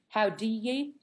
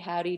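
First: It is said as three separate words. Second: It is run together as one word. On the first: "You could read it" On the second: "But I read it as"

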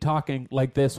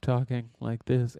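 First: The voice is a little louder and more energetic. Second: The voice is soft, calm and even, like radio. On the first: "where I'm talking a little bit louder" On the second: "in my NPR voice"

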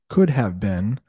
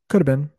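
First: Each word is pronounced fully and separately. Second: The words are blended together into one reduced unit. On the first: "Not could have been" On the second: "I just smushed a bunch of words together"

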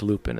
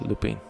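First: The name is pronounced the English way. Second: The name is pronounced the French way.

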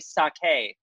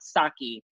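First: The word ends with a pronounced vowel sound. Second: The word ends with no final vowel sound.

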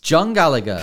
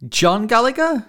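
First: It is said firmly, like a statement. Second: It is said hesitantly, like a question. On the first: The speaker is sure of the answer. The speaker calls it right. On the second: The speaker is not sure of the answer. The speaker calls it wrong.

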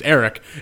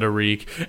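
First: The name is said like 'Eric'. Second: The name is said like 'Arik'. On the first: This is the simpler way adopted later. "it's just Eric" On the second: This is the older way it was said. "for a long time we would have pronounced it Arik"

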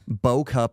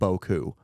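First: The word is said in a mangled, anglicized way. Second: The word is said in the usual French way.

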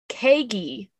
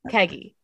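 First: The first vowel is long, as in Kate. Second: The first vowel is short, as in keg. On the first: The speaker calls it right. "It's Katie with a G" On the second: The speaker calls it wrong. "like a keg of beer"

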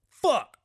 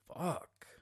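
First: It is a sharp cry of pain. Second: It is a breathy, aroused moan. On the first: The speaker has stubbed a toe. "Hit my toe" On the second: The speaker is about to climax. "I'm about to bust quick as shit"

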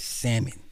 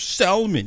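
First: The L sound is silent in the word. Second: The L sound is pronounced in the word. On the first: The speaker calls it right. "The L is silent" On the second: The speaker calls it wrong. "For all you country motherfuckers be like"

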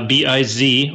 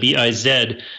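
First: It is said in an American accent. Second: It is said in a Canadian accent.

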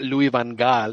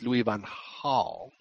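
First: The surname begins with a hard G sound. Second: The surname begins with an H-like sound. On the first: The speaker calls it wrong. "So it's not Louis van Gaal" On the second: The speaker calls it right. "in Holland you pronounce the G's like H's"

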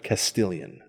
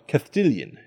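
First: The middle consonant is an s sound. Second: The middle consonant is a th sound. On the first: This is the pronunciation without the lisp. "instead of" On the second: This is the lisped pronunciation the legend describes. "the prevalence of the sound "tha""

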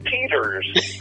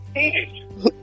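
First: It is said with a California accent, R's pronounced. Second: It is said with a Boston accent, R's dropped.

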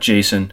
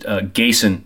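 First: The name starts with a J sound. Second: The name starts with a hard G sound. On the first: This is not how the player says it. The speaker calls it wrong. "not Jason" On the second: This is how the player himself says it. The speaker calls it right. "I do believe he pronounces it Gason"

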